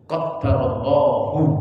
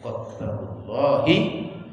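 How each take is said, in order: First: The phrase ends with a 'u' vowel. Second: The phrase ends with an 'i' vowel. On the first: It is read as a verbal sentence: God decreed it. "bisa pakai jumlah... kalimat yang fi'liyah" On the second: It is read as a possessive phrase: God's decree. "kalau qadarullah pakai mudhof mudhof ilaih"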